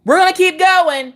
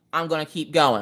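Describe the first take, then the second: First: High, pushed-up exclamation; mock-heroic high holler; rallying cry. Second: Said in the usual way. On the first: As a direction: call it out high like a battle cry. Acted defiant rallying cry.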